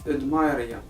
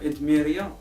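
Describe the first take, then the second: First: The middle syllable sounds like 'my'. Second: The middle syllable sounds like 'mee'. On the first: This is how the name is meant to be said. The speaker calls it right. "كيف خاصها تنطق ادمايريا" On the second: This is how most people say the name. The speaker calls it wrong. "كلشي كيقول لها ادميريا"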